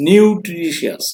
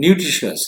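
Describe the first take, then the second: First: "nutritious" stretched out, higher, in separate syllables. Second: Said in the usual way. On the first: Shown as a demonstration. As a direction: sound out "nutritious" part by part to show its syllables. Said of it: "pronounced more than once". ("nutritious" শব্দটা syllable ভেঙে টেনে উচ্চারণ)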